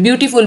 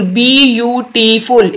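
First: Said in the usual way. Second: "beautiful" slowly in four separate beats; split into syllables. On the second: Shown as a demonstration. Teacher counting four syllables, "beautiful" beat by beat. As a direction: stretch "beautiful" out as बी, यू, टी, फुल. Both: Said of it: "इसमें भी चार syllable है".

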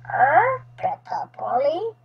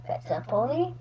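First: Lightly squawked parrot mimicry; a hint of a pet parrot; parrot echo. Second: Said in the usual way. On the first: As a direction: squawk first, then parrot the words back. Parrot seems to echo the question.

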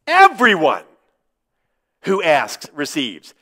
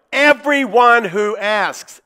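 First: Said in the usual way. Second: "Everyone" leaned on, drawn out slowly; slow and weighty, pressing "Everyone"; stress on everyone. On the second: Shown as a demonstration. Preacher stressing "Everyone" to doubting congregation, slow and pressed. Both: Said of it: "the emphasis here is on the word everyone".

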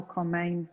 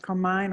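First: Carmine ending to rhyme with "main"; alternative pronunciation attempt. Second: Carmine ending to rhyme with "mine"; first pronunciation attempt. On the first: Offering another version of an attendee's name, Carmine said as kor-MAIN. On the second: Checking a name with the attendee, Carmine said as kor-MINE. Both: Shown as a demonstration. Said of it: "hope I'm saying your name right".

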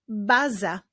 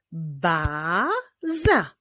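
First: Said in the usual way. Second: "baza" as a drawn-out ba, then za; syllable by syllable. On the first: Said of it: "Rozwiązaniem rebusu jest". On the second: Shown as a demonstration. Teacher working out the rebus answer, "baza" split into syllables. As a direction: stretch and split "baza" into two beats. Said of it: "Wyjdzie nam".

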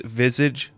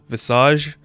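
First: "Visage" said VIZ-ij, like the English word; "Visage" as VIZ-ij, the first guess; first try at the name. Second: "Visage" said vuh-SAHZH, French-style, ending in a rise; "Visage" as vuh-SAHZH, a questioning retry; corrected name. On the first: Reading the name Crimson Visage off the page, says "Visage" as VIZ-ij. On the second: Fixing his reading of the name Crimson Visage, says "Visage" as vuh-SAHZH. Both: Real, not acted.

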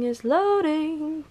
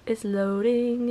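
First: Sing-song chant. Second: Said in the usual way. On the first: Shown as a demonstration. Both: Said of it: "chanting loading screen".

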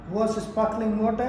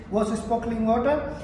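The two takes are said the same way.

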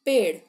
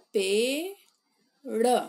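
First: Plain. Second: पेड़ stretched very slowly, vowels held long; drawn-out model word. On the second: Teacher models पेड़ for pupils, very slow drawn-out demo. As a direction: sound out पेड़ slowly for the class. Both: Shown as a demonstration. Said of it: "प में एक की मात्रा".

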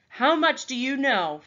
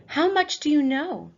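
First: Louder insisting question; repeated demand. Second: Louder, high, pressing question; demanding question. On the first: Raven leader repeating his demand to the boy. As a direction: ask it once more, pressing. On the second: Raven leader questioning the captive boy, stern. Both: Acted.

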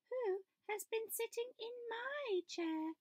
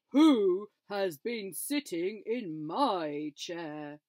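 First: Much higher mama bear voice; higher, slower mama bear; Mother Bear. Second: Slow, loud booming papa bear; big bear, slow and loud; Father Bear. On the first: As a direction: lift it into a prim bear voice. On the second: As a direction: drag it out big and cross. Father Bear voiced in story. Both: A narrator's reading.

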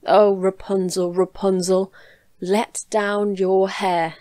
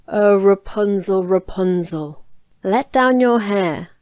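First: Slow call up the tower, lightly voiced prince; a prince imitating the call, slow. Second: Loud, slow witch's call up the tower; a witch calling up the tower, loud and drawn out. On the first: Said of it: "he went to the tower and cried". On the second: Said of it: "listened while she called out". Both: A narrator's reading.

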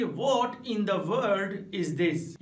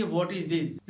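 First: Very slow "What in the world is this?", stress on "What"; emphatic. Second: Said in the usual way. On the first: Shown as a demonstration. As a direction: drag out "What in the world is this?" with weight on "What". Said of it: "जब आपको जोर देकर बोलना हो". ("What in the world is this?" बहुत धीरे, "What" पर ज़ोर) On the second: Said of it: "normal तरीके से आप कहेंगे".

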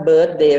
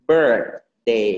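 First: "birthday" misread as bird-day; Thai-style "birthday", like bird-day; wrong bird-day. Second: "birthday" low, with a full ir and th; lower, separated BIRTH... day; correct ir sound. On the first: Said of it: "ถ้า birthday มันเป็นนก". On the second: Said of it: "มันเป็น ไออาร์ มันต้อง". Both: Shown as a demonstration.

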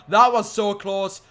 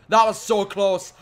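The two takes are said the same way.

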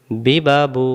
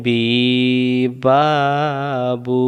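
First: বি বা বু each clipped short and quick; short quick vowels. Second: বি বা বু with each vowel stretched long; wrongly drawn out. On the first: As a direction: say বি বা বু crisply with no stretch. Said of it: "তিনটা একসাথে বলেন". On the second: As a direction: drag out the বি, the বা and the বু as a mistake. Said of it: "তখন হারকাতের উচ্চারণ টান হয়ে গেল". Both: Shown as a demonstration.

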